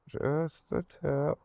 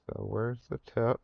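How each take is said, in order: First: Drawn out slowly, deadpan; slow joking innuendo; slow suggestive. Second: Said in the usual way. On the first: Real, not acted. Repeats phrase as a joke.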